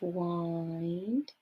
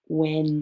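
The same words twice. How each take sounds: First: The vowel sounds like 'eye', rhyming with mind. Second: The vowel does not sound like 'eye'. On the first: "If you said "eind," you are correct" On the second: "This could also be wind, but it's not"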